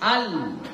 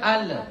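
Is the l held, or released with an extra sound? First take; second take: held; released. First: The l is held without any extra release. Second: The l is released with an extra trailing sound. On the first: The speaker calls it right. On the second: The speaker calls it wrong.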